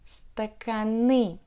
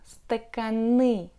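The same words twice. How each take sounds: First: The stress falls on the last syllable. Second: The same.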